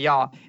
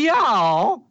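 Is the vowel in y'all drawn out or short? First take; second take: short; drawn out. First: The vowel is short and relaxed. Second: The vowel is drawn out and exaggerated. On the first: The speaker calls it right. "you talk like this. You say, y'all" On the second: The speaker calls it wrong. "if you pronounce that A, we got problems"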